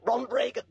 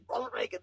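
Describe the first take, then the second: First: Said in the usual way. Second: Ronald Reagan, whispered softer; whispered aside. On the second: Real, not acted. Name repeated as hushed aside.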